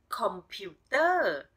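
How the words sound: It is said with a Thai accent.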